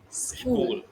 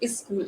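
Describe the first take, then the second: First: The word starts directly with the s sound. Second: An extra e vowel comes before the s. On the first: The speaker calls it right. "It's school" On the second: The speaker calls it wrong. "That's not is school"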